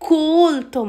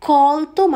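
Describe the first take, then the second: First: It is pronounced as the word for educated. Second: It is pronounced as the word for picked. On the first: It means educated. "কোলতো মানে শিক্ষিত" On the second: It means picked. "কলতো মানে তোলা"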